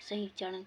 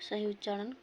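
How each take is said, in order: No difference in how they are said.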